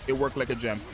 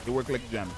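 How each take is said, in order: Both takes have the same delivery.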